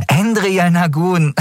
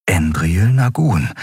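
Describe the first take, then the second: First: Endriel Nagun drawn out, high and mocking. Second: Said in the usual way. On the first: A narrator's reading. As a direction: sneer at Endriel Nagun, slowly. Girl mocks the captain's name. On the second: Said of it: "Kai las erneut die letzte Zeile".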